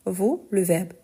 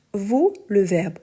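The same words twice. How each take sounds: The two takes are said the same way.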